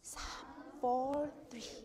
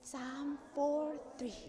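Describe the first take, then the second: No difference in how they are said.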